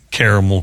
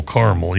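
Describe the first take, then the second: First: Caramel with the middle vowel sounded, CARE-uh-mel; full pronunciation. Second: Caramel squeezed into two syllables, CAR-mul; shortened pronunciation. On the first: Host listing different pronunciations of things, three-syllable Caramel. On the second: Host listing different pronunciations of things, two-syllable caramel. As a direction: say caramel as CAR-mul, dropping the middle vowel. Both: Shown as a demonstration. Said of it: "different pronunciations of things".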